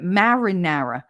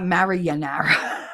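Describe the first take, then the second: First: The word is said with four syllables. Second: The word is said with five syllables. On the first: The speaker calls it right. "that's not how you say it. Marinara" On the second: The speaker calls it wrong. "Not Marianara"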